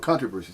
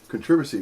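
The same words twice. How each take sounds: First: The stress is on the first syllable. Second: The stress is not on the first syllable. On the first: "The accent's on the first syllable" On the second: "What did that English person just say? British? They said controversy"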